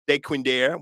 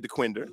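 First: The name is said with a French pronunciation. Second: The name is said with an anglicized pronunciation. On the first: This is the original form of the name. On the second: This is how locals say it.

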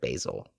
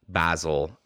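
First: It is said with an American accent. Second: It is said with a British accent.

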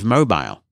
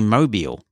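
First: It is pronounced the speaker's usual non-American way. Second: It is pronounced like the Alabama city name. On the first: The word means a phone. The speaker calls it right. "instead of mobile" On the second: The word is read as the place name. The speaker calls it wrong. "it would say Mobile instead of mobile"

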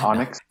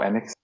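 First: The name starts with an 'ah' vowel, like onyx. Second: The name starts with an 'eh' vowel, like Enix. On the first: The speaker calls it wrong. "not Onyx" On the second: The speaker calls it right. "Enix, not Onyx"

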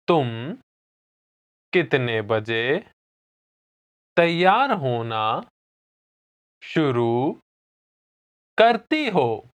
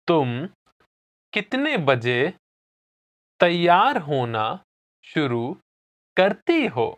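First: It is said slowly. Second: It is said at normal speed.

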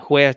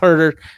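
First: The name is said in a Spanish-style way. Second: The name is said in a plain English way. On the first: "He's from Spain" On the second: "I know it's Herter"

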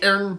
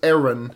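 First: The name is squeezed into one syllable. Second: The name is said with two syllables. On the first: It names the newer character. "it's one syllable versus two" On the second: It names the older character. "versus two"

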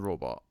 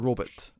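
First: The word is pronounced the usual modern way. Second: The word is pronounced an old-fashioned 1950s way.

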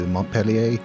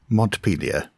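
First: The name is pronounced in a French way. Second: The name is pronounced in an American English way. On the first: The speaker calls it wrong. "I went for the French pronunciation" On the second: The speaker calls it right. "I shall say that again then"

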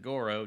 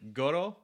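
First: It is said with an American r sound. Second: The r sounds like a d and l mixed. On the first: The speaker calls it wrong. "if you're a goddamn American, you'd pronounce it Goro" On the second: The speaker calls it right. "R is kind of like a D and an L like mixed together"

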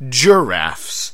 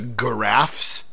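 First: It begins with a J sound. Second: It begins with a hard G sound.

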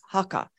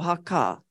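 First: All the vowels are short. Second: One vowel is held longer. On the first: "I say haka" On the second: "If I want to make one of the vowels longer, I put a macron"

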